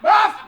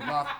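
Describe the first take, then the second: First: It is said loudly. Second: It is said fairly quietly.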